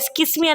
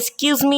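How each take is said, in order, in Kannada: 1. ಮಧ್ಯ ಭಾಗ ಚಿಕ್ಕ 'kis' ಶಬ್ದವಾಗಿ ಕತ್ತರಿಸಲ್ಪಟ್ಟಿದೆ. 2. ಮಧ್ಯ ಭಾಗದಲ್ಲಿ ಪೂರ್ಣ, ದೀರ್ಘ 'kyoo' ಶಬ್ದ ಇದೆ. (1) "ಅದು ಎಸ್ಕಿಸ್ಮಿ ಅಲ್ಲ"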